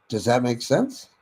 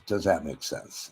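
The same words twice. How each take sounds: First: "Does that make sense?" with the pitch lifting on "sense"; rising inflection. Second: "Does that make sense?" said softer, falling on "sense"; certain falling tone. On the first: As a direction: ask "Does that make sense?" so it rises at the end like a friendly check. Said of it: "ask affirming questions with a raised inflection". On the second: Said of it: "Now we have absolute certainty". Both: Shown as a demonstration.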